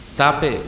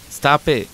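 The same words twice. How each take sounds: First: A lightly eerie copy of the cry, higher in pitch; mimicked cry. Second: Forced-out cry. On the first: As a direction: echo the cry back like a creature copying a voice. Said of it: "it mimicked back". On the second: Retold or imitated. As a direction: Stop it! pushed out higher in panic. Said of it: "I finally managed to tear from my lips".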